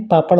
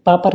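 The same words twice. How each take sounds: First: Said in the usual way. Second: पापड़ as "paapar", plain r; mispronunciation. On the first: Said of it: "पापड़ होता है". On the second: Shown as a demonstration. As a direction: end पापड़ with r, no flap. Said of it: "पापड़ नहीं". (पापड़ में 'ड़' की जगह 'र')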